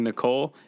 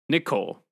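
First: The stress is on the second syllable. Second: The stress is on the first syllable. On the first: It sounds like a common girl's name. The speaker calls it wrong. "That's what keeps me from thinking Nicole" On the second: It is the dragon's name. The speaker calls it right. "I hear the emphasis on the C"

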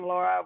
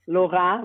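First: The name is said with an American pronunciation. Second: The name is said with a French pronunciation. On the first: "More American" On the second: "would probably be the French version"

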